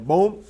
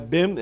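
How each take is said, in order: First: The name is said with the vowel of 'bom'. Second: The name is said with the vowel of 'bem'. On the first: The speaker calls it right. "é bom, essa é a pronúncia" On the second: The speaker calls it wrong. "não é Bem"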